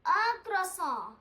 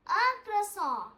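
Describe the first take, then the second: First: "un croissant" said slowly and carefully; slow model word. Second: Said in the usual way. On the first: Shown as a demonstration. Teacher having students say it together, slow and careful. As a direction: stretch out "un croissant" for learners to copy. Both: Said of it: "Let's say".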